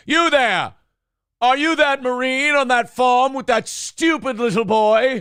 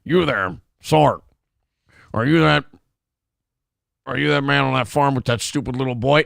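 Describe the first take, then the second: First: High, haughty British officer; British officer accent. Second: Put-on halting, stiff-mouthed American accent; put-on American drawl. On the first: Acted. Actor slipping into his old villain role, high British accent. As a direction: call out imperiously in a hammed-up British accent. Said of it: "Jason, you're fucking it up again. Remember your accent". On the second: Actor retrying the line for director, clumsy American drawl. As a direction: force out an American accent through a mouthful of screws. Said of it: "I gotta talk like this, like I got screws in my mouth".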